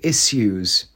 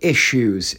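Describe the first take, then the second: First: The middle of issues has a hissing s sound. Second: The middle of issues has a sh sound. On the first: This is how politicians say it. The speaker calls it wrong. "they pronounce the 2 S's" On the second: This is how most people say it. The speaker calls it right. "Even though there's 2 S's, you put a shirt"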